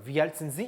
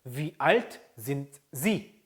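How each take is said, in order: First: "Wie alt sind Sie" run together; fluent, without gaps between the words; quick, linked speech. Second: "Wie alt sind Sie" slowly, word by word; careful model pronunciation with gaps between words; slow, separated words. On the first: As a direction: let "sind Sie" merge into "zinzi". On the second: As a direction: keep the T of "sind" apart from "Sie". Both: Shown as a demonstration. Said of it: "빨리 발음하다 보니까".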